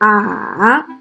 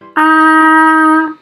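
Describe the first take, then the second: First: The pitch dips low then rises again. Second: The pitch stays high and level. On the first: "let's practice the third tone" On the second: "use our first vowel with a tone mark to practice"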